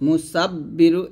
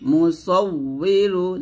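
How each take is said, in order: First: The middle consonant is a doubled 'b' sound. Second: The middle consonant is a doubled 'w' sound. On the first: The speaker calls it wrong. "মুসাব্বিরু এটা কিন্তু ভুল" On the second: The speaker calls it right. "এটা কিন্তু বা না, এটা হলো ওয়াও ওয়াও"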